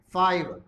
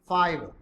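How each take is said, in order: No difference in how they are said.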